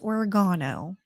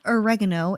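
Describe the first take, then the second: First: It is pronounced in a British way. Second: It is pronounced in a non-British way. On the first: The speaker calls it right. "talk with a British accent or anywhere that you know speaks proper English" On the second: The speaker calls it wrong. "it is not oregano"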